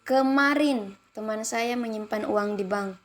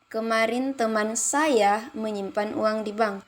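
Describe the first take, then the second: First: The stress falls on the word kemarin. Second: The stress falls on the word saya. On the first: "Pada kalimat pertama mendapatkan tekanan pada kemarin" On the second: "kalimat ketiga saya"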